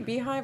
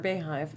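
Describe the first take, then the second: First: The first syllable sounds like 'bee'. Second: The first syllable sounds like 'bay'. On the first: "is it the Beehive or Bayhive?" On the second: "is it the Beehive or Bayhive?"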